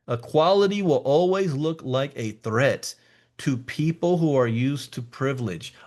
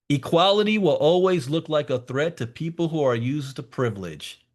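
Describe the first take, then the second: First: It is said more slowly. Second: It is said at a normal pace.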